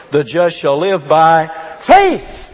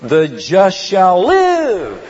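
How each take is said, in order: First: The just shall live by FAITH, slow, FAITH landed loud and falling; slow the line and come down hard on "faith"; stress on faith. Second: The just shall LIVE, slow, with LIVE leaned on loud; stress on live. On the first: Preacher to church, stressing the Hebrews reading, slow. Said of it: "his emphasis falls down on what part". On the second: Preacher to church, stressing the Galatians reading, slow. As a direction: draw out "The just shall live," hitting "live" hard. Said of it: "the emphasis comes upon the second part". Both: Shown as a demonstration.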